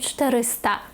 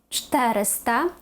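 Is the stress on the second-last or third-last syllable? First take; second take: second-last; third-last. First: The stress is on the second-last syllable. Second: The stress is on the third-last syllable. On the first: The speaker calls it wrong. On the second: The speaker calls it right.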